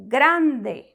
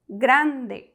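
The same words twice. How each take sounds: Both takes have the same delivery.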